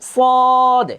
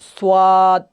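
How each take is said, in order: First: The letter name is said without a w-glide. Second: The letter name is said with a w-glide. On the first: The speaker calls it right. "এভাবে খেয়াল করেন।" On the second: The speaker calls it wrong. "এভাবে না, অনেকে এভাবে বলি"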